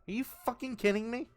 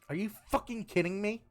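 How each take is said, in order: First: The voice sounds more like Natsuki. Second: The voice sounds less like Natsuki.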